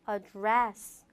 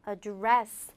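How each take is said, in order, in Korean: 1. 강세는 두 번째 음절에 있어요. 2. 강세는 두 번째 음절에 있어요.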